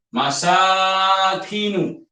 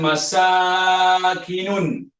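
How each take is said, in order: First: The word ends in a plain short 'u'. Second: The word ends with an extra 'n' sound. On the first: The speaker calls it right. "kamus bagi masakinu" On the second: The speaker calls it wrong. "bukan masakinun, bukan tanwin"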